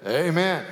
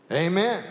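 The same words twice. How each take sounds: First: Said in the usual way. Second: Mild shout. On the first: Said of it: "was to say". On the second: Acted. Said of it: "shouted the man".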